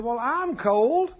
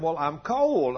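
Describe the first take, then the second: First: Insistent complaint. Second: Said in the usual way. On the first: Retold or imitated. Wife insists she is cold.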